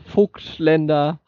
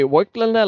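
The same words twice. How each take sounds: First: The name is said with a German pronunciation. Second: The name is said with an English pronunciation. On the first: "like a German one" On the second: "like an English person would says"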